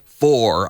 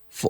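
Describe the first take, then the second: First: The word has a full, clear vowel. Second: The word has a weak, reduced vowel. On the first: "I don't always say for" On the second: "I say, for"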